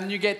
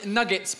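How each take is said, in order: First: It is pronounced with a French-style sound. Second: It is pronounced with an English-style sound. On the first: The speaker calls it wrong. "pas nuggets" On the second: The speaker calls it right. "on dit nuggets"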